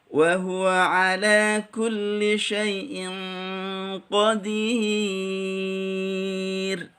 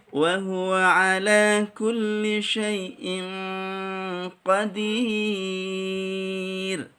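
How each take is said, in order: The two takes are said the same way.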